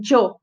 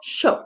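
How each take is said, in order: First: It is said with a Mexican-style initial sound. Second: It is said with an Argentine-style initial sound. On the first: "no México, em alguns países da América Central, se pronuncia como isso aqui" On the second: "Na Argentina, Uruguai e nas regiões próximas"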